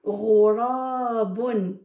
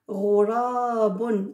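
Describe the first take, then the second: First: Ghurabun read slowly, syllable by syllable; slow model reading. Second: Ghurabun drawn out slowly, gh at the back of the mouth; slow model reading. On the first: Teacher reading the first word to children, slow. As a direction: spell Ghurabun out in sound for the class. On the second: Teacher repeats the word for the children, slow. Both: Shown as a demonstration. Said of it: "qui pourra lire ... le premier mot".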